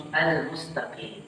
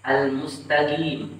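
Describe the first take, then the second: First: Softer "al-mustaqim" with a deep-throat q; "al-mustaqim" with true qaf, no g; correct qaf. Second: Slow "al-mustaqim" with a hard g; wrong reading of "al-mustaqim", g replacing q; dialect g for qaf. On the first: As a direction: say "al-mustaqim" with q from the back of the tongue. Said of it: "Tapi al-mustaqim". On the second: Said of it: "tidak pantas ya membaca". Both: Shown as a demonstration.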